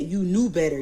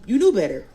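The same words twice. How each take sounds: First: Said in the usual way. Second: Higher and much louder, snapping at her; you knew better, thrown out loud and high; angry scolding. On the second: Retold or imitated. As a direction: scold her, peaking in anger. Scolding the sister in retelling.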